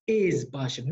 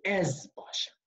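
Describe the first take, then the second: First: "Ez" with a closed, acute-accent é; "Ez Boshem" with é in Ez; mispronunciation by accent. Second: "Ez" with an open è vowel; "Ez Boshem" with è in Ez, falling; correct pronunciation. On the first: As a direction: show the wrong Ez, vowel closed like é. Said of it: "on dirait plutôt Ez Boshem". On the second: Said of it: "Non, c'est Ez Boshem". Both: Shown as a demonstration.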